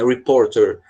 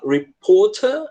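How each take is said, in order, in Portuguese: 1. Os sons do R são bem marcados. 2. Os sons do R são suaves e quase não são pronunciados. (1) "o americano, ele tem uma mania de pronunciar reporter, puxando os R's" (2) "com esse som bem mais para dentro, também tá certo. É a variação inglesa"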